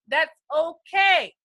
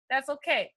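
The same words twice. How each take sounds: First: Hearty called-out reassurance. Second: Softer, gentle that's okay; quiet comforting repeat; soft reassurance. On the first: Acted. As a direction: boom it out to calm them. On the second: Real, not acted. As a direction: ease them down quietly. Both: Reassuring confused newcomers.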